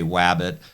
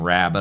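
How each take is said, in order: First: The first sound is distorted but still understandable. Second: The word is pronounced clearly and normally. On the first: The speaker calls it wrong. "you can understand when I say wabbit" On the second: The speaker calls it right. "instead of saying rabbit"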